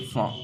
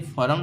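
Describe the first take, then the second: First: फॉर्म with a silent r, like "fawm"; right way. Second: फॉर्म with the r sounded, like "form"; wrong way. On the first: Teacher giving students the correct reading: फॉर्म with a silent r. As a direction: drop the r in फॉर्म and stretch the vowel. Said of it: "इसे हम क्या पढ़ेंगे". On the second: Teacher showing students the common wrong reading: फॉर्म with a sounded r. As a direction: say फॉर्म rolling the r in the middle. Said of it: "यहाँ पर हम इसे फॉर्म नहीं पढ़ेंगे". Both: Shown as a demonstration.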